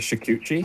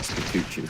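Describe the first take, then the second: First: The name is said in its standard form. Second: The name is said in an altered form.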